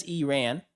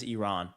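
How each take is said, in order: First: "Iran" said ee-RAN; "Iran" as ee-RAN, with a short flat a; ee-RAN pronunciation. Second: "Iran" said ee-RON; "Iran" as ee-RON, rhyming with gone; ee-RON pronunciation. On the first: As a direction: open "Iran" with "ee", then RAN as in man. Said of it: "Adab says". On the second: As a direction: open "Iran" with "ee", broad ah in RON. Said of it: "Garrett says". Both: Retold or imitated.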